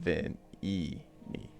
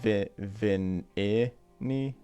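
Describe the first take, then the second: First: The second vowel is an 'ee' sound. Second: The second vowel is an 'eye' sound. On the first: "or is it vin E ni" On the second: "whether the second I is an I or an E sound"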